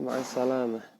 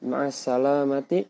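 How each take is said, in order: First: The last word ends with an h sound. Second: The last word ends with a t and a vowel. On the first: "pengucapannya ma'as salamah" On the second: "di situ ti"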